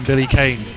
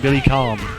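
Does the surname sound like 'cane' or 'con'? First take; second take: cane; con. First: The surname is said like 'cane'. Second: The surname is said like 'con'. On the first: This is the usual English reading of the spelling. "I will call him Billy Kane" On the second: This is how the original Japanese version says it. "it is actually Billy Khan in all of the Japanese pronunciations"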